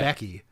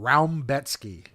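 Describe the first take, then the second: First: It is read plainly, with no added 'm' sound. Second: It has an 'oum' sound and an 's' sound. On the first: This is how the name looks written. "how you pronounce Rombetsky's name when it's spelled" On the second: This is how people actually say the name. "They call him Raumbetsky"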